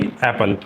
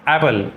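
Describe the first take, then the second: First: The p sound is held double. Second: The p sound is said only once. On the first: The speaker calls it wrong. "न कि एप्पल" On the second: The speaker calls it right. "उसको एक बार ही हम pronounce करते हैं"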